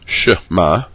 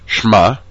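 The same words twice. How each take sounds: First: A short vowel follows the sh sound. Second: No vowel follows the sh sound. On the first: The speaker calls it right. "Under the Shin is a Shvana. It has a very short vowel sound" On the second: The speaker calls it wrong. "You should not say Shema"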